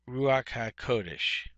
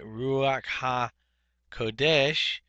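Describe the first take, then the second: First: The stress is on the first syllable of Kodesh. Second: The stress is on the last syllable of Kodesh. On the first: The speaker calls it right. "the accent should go on the first signal uh, symbol uh, syllable here" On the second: The speaker calls it wrong. "putting the, uh, the accent on the last syllable"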